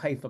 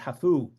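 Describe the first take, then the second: First: It is said with a plain English pronunciation. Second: It is said with a Hebrew-style pronunciation.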